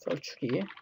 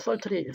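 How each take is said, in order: First: The tr is said like a rounded ch sound. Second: The tr is said as a plain t sound. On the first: The speaker calls it right. "썰추리 이렇게 발음하죠" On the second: The speaker calls it wrong. "티알 발음을 글자 그대로 티귿 리을 발음으로 하는 사람 거의 없어요"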